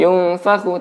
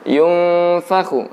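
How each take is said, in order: First: The nasal sound is passed over quickly. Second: The nasal sound is held with a hum. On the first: The speaker calls it wrong. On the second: The speaker calls it right. "ditahan dulu"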